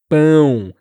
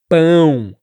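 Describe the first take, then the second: The two takes are said the same way.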